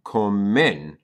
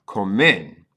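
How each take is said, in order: First: Comen said clearly, stress on co; model Spanish word. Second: Comen repeated a bit louder, stress on Co; repeated model word. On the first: Teacher modeling comen for beginners. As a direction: carefully say comen. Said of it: "you would say". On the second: Teacher repeating Comen so students hear it. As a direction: say Comen again firmly. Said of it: "That's how you say they eat". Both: Shown as a demonstration.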